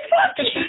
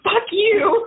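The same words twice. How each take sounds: First: Much higher, laughing mock shout. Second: Retold snap. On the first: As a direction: blurt it out, half yelling and half laughing. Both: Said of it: "I was like".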